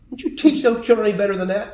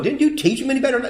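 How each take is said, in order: First: It is said in an old person's voice. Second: It is said in an ordinary, younger-sounding voice.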